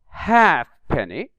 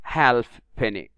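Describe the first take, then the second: First: The silent letter is not pronounced. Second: The silent letter is pronounced aloud. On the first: The speaker calls it right. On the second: The speaker calls it wrong.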